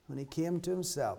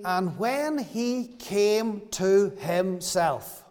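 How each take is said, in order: First: Much softer, almost to himself; soft repetition. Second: Drawn out, each word weighed; slow scripture reading. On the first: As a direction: let it fall quietly, reflective. Repeating the verse for effect. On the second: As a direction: read the verse very slowly, savouring it. Quoting verse seventeen slowly. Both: Acted.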